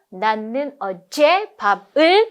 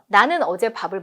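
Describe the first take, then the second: First: Two of the words are stressed more strongly. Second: All words get the same weight. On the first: "중요한 건 어제고 밥을이거든요" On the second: "여기서 뭘 더 강조해야지가 없잖아요"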